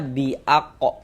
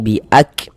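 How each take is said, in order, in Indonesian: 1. Huruf k diikuti oleh vokal tambahan. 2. Huruf k diakhiri dengan hembusan napas yang lembut dan mengalir. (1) "Jangan dibaca bi'ako" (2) "kita baca seperti ini"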